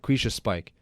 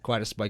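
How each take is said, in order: First: The first word sounds like 'quiche-a'. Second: The first word sounds like 'quiet-us'.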